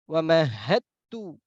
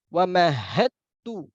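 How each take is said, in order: No difference in how they are said.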